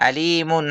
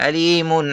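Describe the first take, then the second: The two takes are said the same way.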